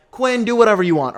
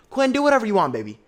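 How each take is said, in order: First: Louder, daring Quinn to try; defiant call-out. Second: Higher, louder, sing-song sass; sassy taunt. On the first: Viewer daring Quinn, loud defiant call-out. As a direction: throw it at him loud and careless. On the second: Viewer teasing Quinn, high sassy taunt. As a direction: tease him sweetly and dismissively. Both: Real, not acted.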